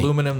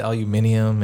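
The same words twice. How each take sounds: First: Said in the usual way. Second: "aluminium" with an extra syllable, al-yu-MIN-ium; Australian pronunciation. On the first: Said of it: "instead of aluminum, they say". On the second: Shown as a demonstration. Showing friends the Australian word, "aluminium" as al-yu-MIN-ium. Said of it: "they say aluminium".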